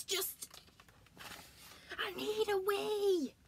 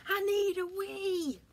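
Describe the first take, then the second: First: High, slow, whimpering wail; desperate bear wail. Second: High, loud, slow desperate wail; desperate bear wail. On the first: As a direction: plead it, bursting. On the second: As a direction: whine it, bursting. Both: Acted.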